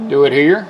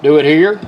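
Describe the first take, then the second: No difference in how they are said.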